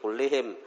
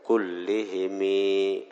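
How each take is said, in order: First: The word ends on the m sound. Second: The word ends with an added i vowel. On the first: This is the basic form of the word. "Asal kullihim" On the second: The vowel is lengthened to fit the poetic meter. "karena syair kullihimi"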